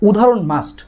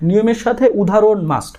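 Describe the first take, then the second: First: "must" said firmly, set apart at the end; stressing examples a must. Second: "সাথে" stressed, then a firm "must"; emphatic repeat. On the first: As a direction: lean on "উদাহরণ" and finish with a firm "must". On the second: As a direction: land hard on "সাথে" and close on "must". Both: Shown as a demonstration.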